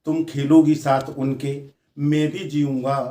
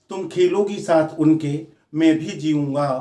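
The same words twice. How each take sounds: The two takes are said the same way.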